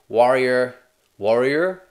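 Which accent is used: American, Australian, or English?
American. It is spoken in an American accent. "is it different in an American accent?"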